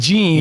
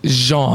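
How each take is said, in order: First: It sounds like the English word for denim. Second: It starts with a soft French zh sound. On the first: The speaker calls it wrong. "it looks like Jean" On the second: The speaker calls it right. "but it's Jean"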